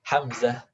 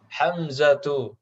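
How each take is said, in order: First: The name ends with a soft h sound. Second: The name ends with a full tu syllable. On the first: This is the simple everyday way of saying it. "kalau keseharian nggak ribet ya" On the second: This is the full, formal reading. "ini kalau kita lengkap baca"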